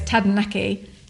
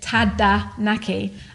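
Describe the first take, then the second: First: The word is said quickly. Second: The word is said slowly and carefully. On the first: "then say it quickly" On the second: "imagine that you're saying Tadanaki"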